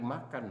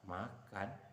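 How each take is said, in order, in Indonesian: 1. Kata ini diucapkan dengan marah, seperti seruan. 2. Kata ini diucapkan dengan bingung, seperti pertanyaan yang heran. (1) "bunyi marah dengan kalimat tadi makan marah, tanda seru" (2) "seperti bingung bertanya, memberikan berita seperti tidak disangka"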